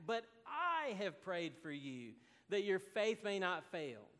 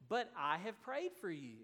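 First: "I" leaned on, the rest steady; stress on I. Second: Said in the usual way. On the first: Shown as a demonstration. Pastor quoting Jesus, stressing "I" emphatically. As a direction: press hard on "I" in "But I have prayed". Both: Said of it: "It's emphatic".

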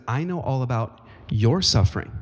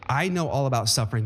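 First: "your" stressed harder than the rest of the line; emphatic on your. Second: Said in the usual way. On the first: Shown as a demonstration. Pastor voicing Jesus to the church, stress on "your". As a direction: lean on "your" to make it personal. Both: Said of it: "he makes it even more emphatic".

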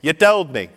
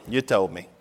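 First: "told" punched high and loud in "You told me"; emphatic concession. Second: Said in the usual way. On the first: Retold or imitated. Conceding to fiancée that she told him, emphatic. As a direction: hit "told" hard, pitched up.

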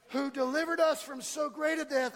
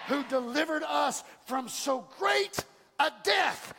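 First: Said in the usual way. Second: Drawn out, louder, each word hammered; slow shouted proclamation. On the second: Shown as a demonstration. Pastor proclaiming scripture to his church, slow shout. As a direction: shout the verse to the rafters.

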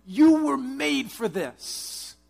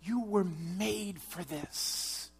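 First: Slow, much higher, much louder proclamation; preaching at full force. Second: You were made for this said slowly, at usual pitch; slow, measured delivery. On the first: Preacher urging the congregation, slow loud declaration. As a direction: drive each word home, slow and strong. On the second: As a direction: lay it down calmly, word by word. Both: Real, not acted. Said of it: "I'm telling you".

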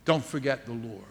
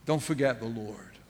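First: Softly repeating the plea; a low, gentle echo; hushed plea. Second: Hushed plea. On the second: Repeated solemn plea. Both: Acted.

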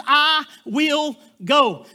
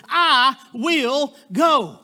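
First: Each word drawn out and certain; the bride answers slowly, with no doubt at all; slow, firm "I will go". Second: Each word drawn out and certain; slow, firm "I will go". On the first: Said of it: "Three words". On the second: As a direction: say it slowly, with no doubt at all. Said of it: "without hesitation". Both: Retold or imitated.

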